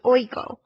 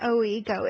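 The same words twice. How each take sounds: First: The o and i glide together in one syllable. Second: The o and i are said as separate syllables. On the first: The speaker calls it right. "run together really quickly" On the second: The speaker calls it wrong. "it's not oigo"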